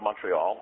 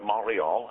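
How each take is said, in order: First: It is said with a plain English pronunciation. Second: It is said with a local French-style pronunciation.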